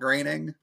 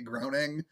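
First: The first vowel sounds like the vowel in 'grain'. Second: The first vowel sounds like the vowel in 'groan'. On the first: The speaker calls it right. "and not graining" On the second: The speaker calls it wrong. "in my mind, the way his name is spelled, I always want to say groaning"

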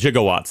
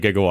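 First: The word begins with a j sound. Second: The word begins with a hard g. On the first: This is how the film said it. "They called them gigawatts" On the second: This is the usual way to say it. "instead of gigawatts"

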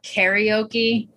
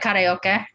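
First: It has the usual American vowel sounds. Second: It has Cantonese-style vowel sounds. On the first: This is the form adopted in America. "that's how Americans say it" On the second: This is how the family says it back home. "How do you say it? Like karaoke"

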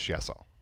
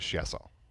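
First: The name is said with French pronunciation. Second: The name is said with French pronunciation.

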